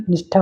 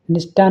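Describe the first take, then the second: First: निष्ठा as "nishtha", with a puff; aspirated ṭha. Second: निष्ठा as "nishta", no puff; unaspirated ṭa. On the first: (निष्ठा के अंत में "ठा" बोलें) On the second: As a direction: end निष्ठा on a plain "ṭa". (निष्ठा को "निष्टा" बोलें) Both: Shown as a demonstration. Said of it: "टा और ठा संबंधित".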